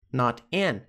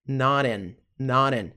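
First: "Not an" as two separate words; unlinked words. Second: "not an" as one word, like noran; linked pronunciation. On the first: Teacher lays out the pattern, separated pronunciation. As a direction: keep Not and an apart. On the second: Teacher shows the pattern, linked pronunciation. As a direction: tap the T of not into an. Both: Shown as a demonstration. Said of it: "Padrão de pronúncia".

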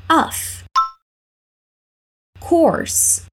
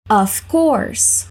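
First: "Of course" whispered, unvoiced and high; whispered model. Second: Said in the usual way. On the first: Shown as a demonstration. Teacher modelling the reply for students, whispered. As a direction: breathe the words without voice. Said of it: "Let's repeat". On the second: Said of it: "tentar replicar a entonação".

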